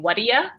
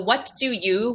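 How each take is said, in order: First: The words run together with a reduced ending. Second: Each word is pronounced fully and clearly. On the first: "when a native speaker will usually say" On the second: "So what do you"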